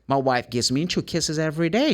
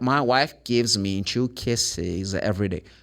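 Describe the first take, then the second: First: The sentence is said fast, words run together. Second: The sentence is said slowly, word by word. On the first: "Normally they really go like pa pa pa" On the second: "Fine if you speak like this"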